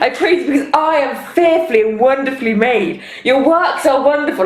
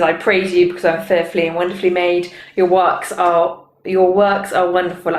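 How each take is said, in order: First: It is said in a boastful, big-headed way. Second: It is read in a plain, neutral way.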